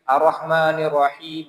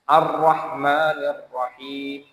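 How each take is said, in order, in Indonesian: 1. Konsonan ganda dibaca tunggal. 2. Konsonan ganda dibaca panjang. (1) "Lalu dia bacanya begini, ... fatal ini kesalahannya" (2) "Ada dua tasdid kan di situ"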